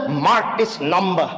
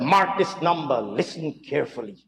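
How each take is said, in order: First: Slow, mock-solemn announcement; a hint of pompous weight on each word; mock gravitas. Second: Lower, fading to a hush on listen carefully; mock-solemn, trailing off quietly; mock gravitas. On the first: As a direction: lightly imitate her feigned gravitas. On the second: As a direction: imitate a dramatic hushed warning. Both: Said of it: "feigned gravitas".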